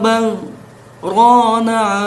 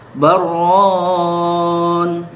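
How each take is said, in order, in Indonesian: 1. Ada jeda diam singkat yang memisahkan kedua kata. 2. Kedua kata itu menyambung tanpa jeda. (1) "kita membacanya wajib dengan saktah seperti ini" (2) "kalau dibaca tanpa sakta"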